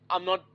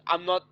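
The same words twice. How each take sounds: The two takes are said the same way.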